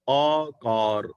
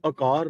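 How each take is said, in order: First: ਆਕਾਰ with a long open aa at the start, drawn out slowly; correct pronunciation, slow. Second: ਆਕਾਰ said with a short first a, as the mistake; ਆਕਾਰ clipped to a-kaar, the wrong way; wrong reading shown. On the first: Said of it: "ਐੜੇ ਦੇ ਨਾਲ ਕੰਨਾ ਬੁਲਾਉਣਾ ਹੈ". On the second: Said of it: "ਇਹਨੂੰ ਆਕਾਰ ਨਹੀਂ ਪੜ੍ਹਨਾ". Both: Shown as a demonstration.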